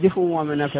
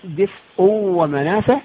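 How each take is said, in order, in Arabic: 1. الهمزة في آخر الكلمة ضعيفة أو غير موجودة. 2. الهمزة في آخر الكلمة منطوقة بكاملها وبوضوح.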